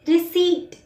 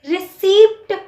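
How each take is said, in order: First: The p sound is silent. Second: The p sound is pronounced. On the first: The speaker calls it right. "पी silent होता है" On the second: The speaker calls it wrong. "रिसीप्ट कोई word नहीं है"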